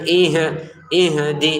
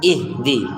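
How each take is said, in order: First: The h sound bounces with an echoing release. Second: The h sound flows straight into di. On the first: The speaker calls it wrong. "hati-hati jangan dipantulin lagi. Jangan ih ihdi" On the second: The speaker calls it right. "langsung ihdi"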